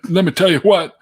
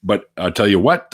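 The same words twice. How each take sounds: First: "let me tell you what" higher and louder, leaning on "what"; laughing emphatic retake. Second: Said in the usual way. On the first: Shown as a demonstration. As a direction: punch "what" through a laugh.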